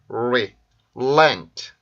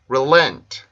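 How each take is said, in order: First: The word is said at a slower pace. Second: The word is said at a faster pace.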